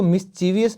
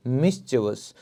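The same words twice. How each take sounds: First: मिस्चीवियस said wrongly as mis-CHEE-vee-us, four syllables; wrong pronunciation. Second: मिस्चीवियस said as MIS-chuh-vus, three syllables; correct pronunciation. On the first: Teacher demonstrates the wrong way for students, wrong pronunciation. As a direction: demo the common mistake, मिस्चीवियस with an extra vee. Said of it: "इसको मिस्चीवियस नहीं बोलेंगे". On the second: Teacher models the right way for students, correct pronunciation. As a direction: model मिस्चीवियस cleanly, stress on the first syllable. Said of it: "इसे आप बोलेंगे मिस्चीवियस".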